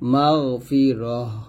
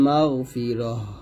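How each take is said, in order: First: The word ends with a silent h sound. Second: The same.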